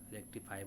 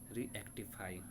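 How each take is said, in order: First: It is said as rectify, with no extra vowel. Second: It is said as ree-actify, with an extra vowel. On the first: It is the usual reading of the word. "पढ़ते हैं ना रेक्टिफाई बोलते हैं" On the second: It is a memory-trick form of the word. "लेकिन हम ऐसे बोल रहे हैं उसको ट्रिक में"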